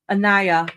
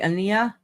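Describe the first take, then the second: First: The i is said like the letter name. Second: The i is not said like the letter name. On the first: The speaker calls it right. "pronounce the I like you're saying the letter" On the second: The speaker calls it wrong. "Am I saying that right?"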